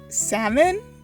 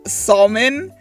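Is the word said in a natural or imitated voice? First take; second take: imitated; natural. First: It is said in a put-on, imitated voice. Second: It is said in the speaker's own natural voice. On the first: Someone else said it. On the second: The speaker is quoting herself.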